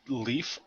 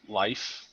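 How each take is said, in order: First: The vowel is a long 'ee' sound. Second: The vowel is an 'eye' sound. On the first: "pronounce it leaf" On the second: "or like life"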